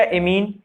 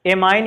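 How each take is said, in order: First: एमीन with a long "ee"; amine as "a-meen". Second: एमाइन with an "eye" vowel; amine as "a-mine". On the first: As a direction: say एमीन so that it ends like "mean". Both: Shown as a demonstration. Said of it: "NH three को क्या पढ़ते हो".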